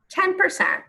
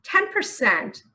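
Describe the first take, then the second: First: TEN pitched much higher, leaning on Ten percent; stunned emphasis on Ten; emphatic repeat. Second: Said in the usual way. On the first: Shown as a demonstration. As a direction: hammer home Ten percent in disbelief.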